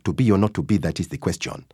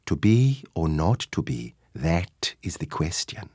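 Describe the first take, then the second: First: Said in the usual way. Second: Slow, lilting East African way of speaking; lyrical East African accent. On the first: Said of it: "instead of having". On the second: Shown as a demonstration. Actor showing how East African accent suits Shakespeare, lyrical. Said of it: "a more lyrical way of speaking".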